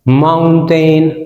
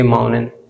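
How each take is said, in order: First: The t after n is clearly pronounced. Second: The t after n is dropped.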